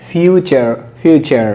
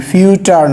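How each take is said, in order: First: ফিউচার said with a clear CH sound, fiu-char; correct pronunciation. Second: ফিউচার said wrongly with a hard T sound, fiu-tar; wrong pronunciation. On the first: Teacher corrects students, careful model pronunciation. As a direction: model ফিউচার slowly with চ in the middle. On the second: Teacher shows students the wrong way, deliberately mispronounced. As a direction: stress the mistaken ট in ফিউচার. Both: Shown as a demonstration. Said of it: "ফিউচার না".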